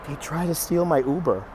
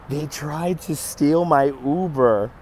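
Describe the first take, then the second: First: Said in the usual way. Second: Drawn out word by word; slow, incredulous retelling; slow emphatic repeat. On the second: Real, not acted. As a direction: stretch it out slowly to stress the outrage.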